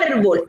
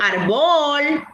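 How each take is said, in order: First: The stress is on the first syllable. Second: The stress is on the last syllable. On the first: The speaker calls it right. "yo digo árbol. Ay, entonces lleva tilde y es grave en la penúltima sílaba" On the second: The speaker calls it wrong. "Yo no digo árbol"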